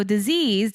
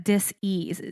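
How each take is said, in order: First: Said in the usual way. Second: "dis-ease" said as dis, ease; two distinct beats on "dis-ease"; split into two words. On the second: Shown as a demonstration. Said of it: "space E A S E".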